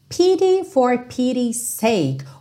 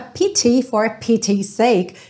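First: The T in pity is a soft tap. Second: The T in pity is crisp, British style.

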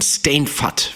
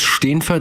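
First: The name is said with a Low German pronunciation. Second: The name is said with a Standard German pronunciation. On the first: This is the original form of the name. "es ist Pladütsch und Steenfatt wäre, glaube ich, so die Originale" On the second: This is how the speaker usually says the name. "ich spreche ihn immer so hochdeutsch aus"

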